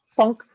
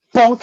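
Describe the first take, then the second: First: A timid, half-hearted "Funk"; feeble hit sound. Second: A slightly bolder "Funk"; firmer hit sound. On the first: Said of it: "I'm like". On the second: A beginner hitting the gnome a little harder: firmer "Funk". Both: Retold or imitated.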